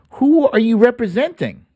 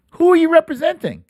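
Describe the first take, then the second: First: First, measured asking of "who are you representing?"; pointed question. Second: Much higher, fast, indignant; "Who are you representing?" pitched high and rushed, in disbelief; exasperated repeat. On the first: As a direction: stress on "who", a firm questioning fall. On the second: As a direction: fire the question back, exasperated. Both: Real, not acted. Repeated rhetorical question.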